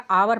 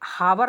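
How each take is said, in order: First: The word begins with a vowel sound. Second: The word begins with an h sound. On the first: The speaker calls it right. "आवर पढ़ा जाएगा" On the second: The speaker calls it wrong. "हावर नहीं पढ़ा जाएगा"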